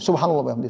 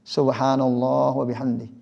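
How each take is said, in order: First: It is rushed and slurred together. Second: It is said slowly and deliberately. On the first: The speaker's heart is not present. The speaker calls it wrong. "cepat-cepat gitu ... sampai belepotan ya" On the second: The speaker truly contemplates the words. The speaker calls it right. "dia betul-betul menghayati"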